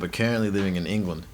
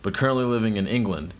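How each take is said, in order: First: It is read in an Australian accent. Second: It is read in an American Southern accent. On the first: "Just read that in an Australian accent" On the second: "you read it in the Atlanta accent"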